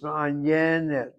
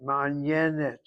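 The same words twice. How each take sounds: First: The stress is on the second-to-last syllable. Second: The same.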